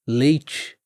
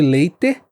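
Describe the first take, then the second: First: The last syllable has a soft 'ch' sound. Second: The last syllable has a hard t sound. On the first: "você vai ouvir" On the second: "Ao invés de"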